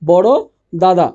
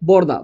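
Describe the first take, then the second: First: The syllable 'da' is said twice. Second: The syllable 'da' is said only once. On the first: "এখানে ছিল দুইটা দা" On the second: "একটা লোপ পেয়ে একটা হয়েছে"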